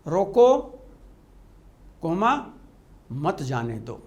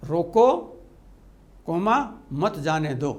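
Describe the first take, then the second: First: The break comes right after the word roko. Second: The same.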